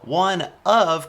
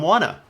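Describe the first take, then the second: First: Both words are said fully and separately. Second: The words are blended into one reduced word. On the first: "one of can also become" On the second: "can also become wanna"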